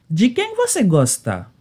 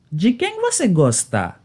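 The two takes are said the same way.

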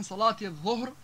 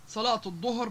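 First: Said in the usual way. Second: الظهر as ed-dohr, heavy d. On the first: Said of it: "بدل من صلاة الظهر". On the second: Shown as a demonstration. Teacher showing the sound shift, الظهر with heavy d. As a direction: say الظهر with emphatic d stop. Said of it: "الظاء المعجمة ليصبح ضاء".

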